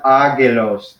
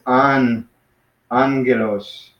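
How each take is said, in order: First: "agelos" with a plain g, no n sound; wrong pronunciation. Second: "angelos" with an n sound before hard g; n-g pronunciation. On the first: Teacher showing students the wrong reading, mispronounced. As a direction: say "agelos" without any nasal before the g. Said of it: "this is not agelos". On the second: Teacher showing the double gamma as n-g, careful pronunciation. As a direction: slowly model "an-gelos", n before the g. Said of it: "like, an N G sound". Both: Shown as a demonstration.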